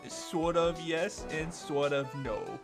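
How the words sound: The put-on voice is heavily exaggerated. The speaker calls it wrong.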